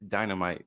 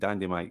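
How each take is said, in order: First: It is said with a standard English pronunciation. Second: It is said with a Jamaican patois pronunciation.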